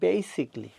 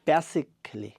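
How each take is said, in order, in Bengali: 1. '-ly'-এর আগের 'al' অংশটি বাদ যায়। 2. '-ly'-এর আগের 'al' অংশটি উচ্চারণ করা হয়। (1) "এটি হবে" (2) "আমরা বাংলাদেশে বলে থাকি"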